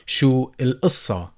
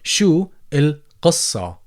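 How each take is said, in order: First: The word has a glottal stop instead of q. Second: The word has a deep uvular q sound. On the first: "replace the letter qaf with a glottal stop" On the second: "you can go ahead and pronounce it as qaf"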